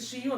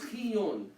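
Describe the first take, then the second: First: The word begins with a 'sh' sound. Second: The word begins with a 'kh' sound. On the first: This is how most deacons say it. "most deacons will pronounce it shion" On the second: This is the proper way to say it. "some will pronounce it as chiyon, which is the proper way"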